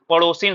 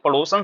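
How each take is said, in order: First: The last syllable is said as 'sin'. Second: The last syllable is said as 'san'. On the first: The speaker calls it right. "पड़ोसिन सही होता है" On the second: The speaker calls it wrong. "पड़ोसन सही नहीं होता है"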